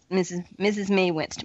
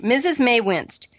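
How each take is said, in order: First: Said in the usual way. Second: "Missus May winced" said slower and louder; emphatic reread. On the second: Shown as a demonstration. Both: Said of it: "repeats the line".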